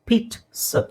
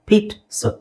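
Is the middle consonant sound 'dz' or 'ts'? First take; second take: ts; ts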